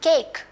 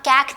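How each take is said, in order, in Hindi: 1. स्वर लंबा है, जैसे अक्षर का नाम। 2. स्वर छोटा है, जैसे apple में। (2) "यहाँ कैक नहीं है"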